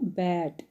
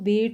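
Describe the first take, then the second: First: The vowel is an open 'a' as in bat. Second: The vowel is a mid 'e' as in bet. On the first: The speaker calls it right. "यही sound दे रहा है आपको" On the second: The speaker calls it wrong. "यहाँ आप इसको बेट नहीं बोलेंगे"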